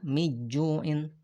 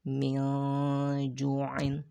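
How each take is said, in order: First: The n is dropped completely before the j. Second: The n is blurred and hidden before the j. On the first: The speaker calls it wrong. "bukan juga miju'in" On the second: The speaker calls it right. "maka diikhfakan. Ikhfa itu artinya adalah samar"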